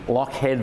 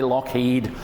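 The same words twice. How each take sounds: First: The name ends with a 'head' sound. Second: The name ends with a 'heed' sound. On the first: The speaker calls it right. "L O C H H E A D" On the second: The speaker calls it wrong. "Don't say Lockheed. You'll come across as a newbie"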